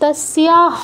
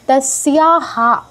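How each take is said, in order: First: The word ends in a bare h sound. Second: The word ends in a full 'ha' syllable. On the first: The speaker calls it wrong. "ওটা তস্যা হ নয়" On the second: The speaker calls it right. "বিসর্গের সাথে আ- আকারটা যোগ করতে হবে"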